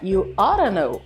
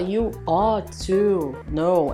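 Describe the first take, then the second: First: Ought to is run together as oughta. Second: Ought to is said slowly and in full. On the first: "ela fala you oughta know" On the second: "ela não fala devagar e ela não fala you ought to know"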